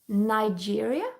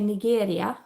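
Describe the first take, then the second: First: The name is pronounced the English way. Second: The name is pronounced the Swedish way. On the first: "Is that how you say it in English?" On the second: "In Swedish you say Nigeria"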